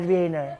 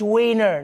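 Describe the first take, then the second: First: The word begins with a German V sound. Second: The word begins with an English W sound. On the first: The speaker calls it wrong. "not Wiener. ... stop pronouncing their W's like V's" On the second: The speaker calls it right. "It's Wiener"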